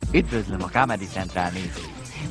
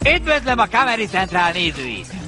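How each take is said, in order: First: The greeting is said at normal volume. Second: The greeting is said noticeably louder.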